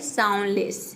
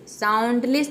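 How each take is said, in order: First: The d sound is left silent. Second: The d sound is clearly pronounced. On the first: The speaker calls it right. "ये होता है साउंडलेस। ... डी silent है" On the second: The speaker calls it wrong. "साउंडलेस नहीं होता है"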